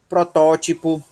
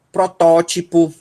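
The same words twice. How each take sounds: The two takes are said the same way.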